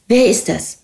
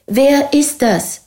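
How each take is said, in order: First: Said in the usual way. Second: "Wer ist das" drawn out slowly with high pitch on "ist"; insistent repeat. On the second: A narrator's reading. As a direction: stretch and lift "ist" in "Wer ist das", demanding an answer. („Wer ist das“ langsam, mit hoch betontem „ist“) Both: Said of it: "wiederholte sie".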